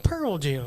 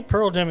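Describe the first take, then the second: First: Slow, drawled "Pearl Jam"; imitated pronunciation. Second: Said in the usual way. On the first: Co-host teasing how his friend said it, drawn-out "Pearl Jam". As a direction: stretch out "Pearl Jam" to mimic him. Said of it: "You said Pearl Jam". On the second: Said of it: "exactly like you just said".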